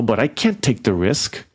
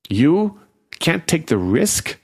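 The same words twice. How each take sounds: First: Said in the usual way. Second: Incredulous outrage. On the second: A narrator's reading. The dying fairy throwing Angela's excuse back at her, outraged. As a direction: fling the words back in disbelief.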